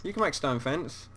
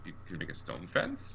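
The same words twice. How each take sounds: First: Can pressed firm, falling; quiet, reassuring stress on can. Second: Quiet, disbelieving rise on fence; incredulous, rising at the end; surprised question. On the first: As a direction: insist that you really can. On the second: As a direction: ask it like you can't believe it. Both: Real, not acted.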